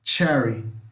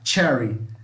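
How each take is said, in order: No difference in how they are said.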